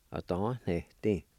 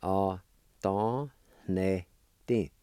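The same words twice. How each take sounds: First: Said in the usual way. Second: "Opportunity" very slow, syllable by syllable; sounded out. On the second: Shown as a demonstration. Teacher repeating gift for learners, slowly sounded out. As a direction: stretch and separate every syllable of "Opportunity". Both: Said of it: "is pronounced like this".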